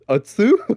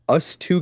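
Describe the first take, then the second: First: It is run together as one word. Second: It is said as two separate words. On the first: The speaker calls it wrong. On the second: The speaker calls it right.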